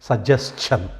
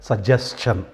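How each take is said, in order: Both takes have the same delivery.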